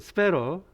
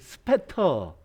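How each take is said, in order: First: The middle t is a soft flap. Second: The middle t is a clear t.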